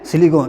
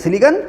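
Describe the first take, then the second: First: It is said in an English-medium style pronunciation. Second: It is said in a Hindi-medium style pronunciation. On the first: English-medium students say it this way. "English medium में" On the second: Hindi-medium students say it this way. "Hindi medium में"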